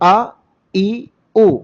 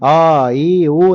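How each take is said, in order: First: The vowels begin with a sharp throat catch. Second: The vowels begin softly without a throat catch. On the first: The speaker calls it right. "അപ്പം ശരിക്ക് അ ഇ ഉ" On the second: The speaker calls it wrong. "ചില ആളുകൾ തസ്ഹീലാക്കിക്കൊണ്ട് തസ്ഹീൽ പോലെ ആ ഈ ഊ എന്നായി പോവും. അങ്ങനെ ആവാൻ പാടില്ല"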